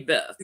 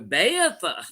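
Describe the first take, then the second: First: The name is said as one short syllable. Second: The name is drawn out into several syllables. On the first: "don't say Beth" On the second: "they always go Beatha. You know, like it's a three syllable word"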